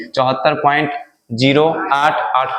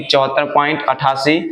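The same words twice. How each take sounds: First: "zero आठ आठ" said as separate digits after "point"; digit-by-digit reading. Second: "अट्ठासी" said as one whole number after "point"; decimals as whole number. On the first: Teacher showing students how decimals are read, "zero आठ आठ" digit by digit. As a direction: read "चौहत्तर point", then each digit singly: "zero आठ आठ". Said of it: "point के बाद एक एक अंक कर बोलेंगे".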